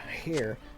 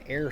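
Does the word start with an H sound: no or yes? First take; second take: yes; no. First: The word begins with an H sound. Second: The word begins with a vowel sound. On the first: The speaker calls it wrong. "My brain wants to say H" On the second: The speaker calls it right. "but it's an air"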